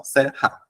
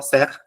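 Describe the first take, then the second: First: Said in the usual way. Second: Serra split into two syllables ser-ra; wrong split pronunciation of serra. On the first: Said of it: "é uma coisa só". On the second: Shown as a demonstration. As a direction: break serra into ser and ra, each r sounded. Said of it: "Ninguém fala serra".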